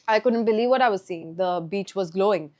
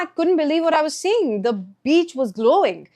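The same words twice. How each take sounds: First: The voice stays flat with little pitch change. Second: The voice is lively with varied pitch. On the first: The speaker seems bored and uninterested. The speaker calls it wrong. "with lack of intonation or in a monotonous way" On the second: The speaker seems engaged and amazed. The speaker calls it right. "in order to communicate effectively"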